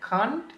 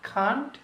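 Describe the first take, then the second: The two takes are said the same way.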